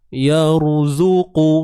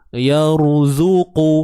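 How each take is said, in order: The two takes are said the same way.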